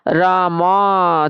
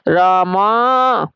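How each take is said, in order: First: Said in the usual way. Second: Long drawn-out call, vowel stretched; calling from afar. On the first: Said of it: "जब कोई दूर होता है, उसे दूर से पुकारने के लिए". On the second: Shown as a demonstration. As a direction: call it out as if across a field. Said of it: "उसे दूर से पुकारने के लिए हम लगाते हैं आवाज". (दूर से पुकारती लंबी आवाज़)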